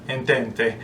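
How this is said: It is said in an Italian accent.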